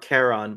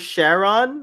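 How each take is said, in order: First: The name is said with plain, ordinary pronunciation. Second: The name is said with exaggerated, overdone pronunciation.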